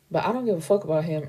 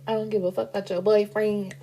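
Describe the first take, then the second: First: Said in the usual way. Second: Put-on character voice. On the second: Same line redone in a put-on voice.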